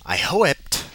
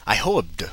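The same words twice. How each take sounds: First: "hoped" said with a high questioning rise; rising question. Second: Said in the usual way. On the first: Shown as a demonstration. Reader mocks the line by asking it, rising. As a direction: let "hoped" climb up like a puzzled question.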